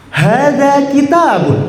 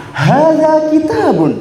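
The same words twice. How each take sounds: First: Higher, slow model line; eager demo. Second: Much higher, slow ringing call; bolder. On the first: Teacher's take before asking for a bolder voice. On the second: Teacher asking the class for a bolder voice, ringing. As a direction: project it out boldly. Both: Shown as a demonstration. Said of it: "Yang lebih lantang lagi".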